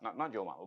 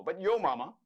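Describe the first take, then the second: First: Yo mama said softer and lower, flat; plain yo mama. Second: Yo mama said higher and louder with a rise on yo; corrected yo mama. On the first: Host correcting his yo mama, soft and plain first. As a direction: say yo mama low and quiet first. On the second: Host showing the right yo mama, higher and louder. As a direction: lift and punch yo mama. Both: Shown as a demonstration.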